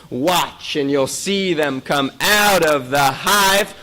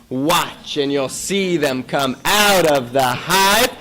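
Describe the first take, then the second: Both takes have the same delivery.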